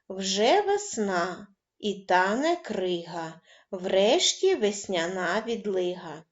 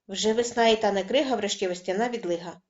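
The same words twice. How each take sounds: First: It is spoken at a moderate, unhurried pace. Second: It is spoken very fast in one breath.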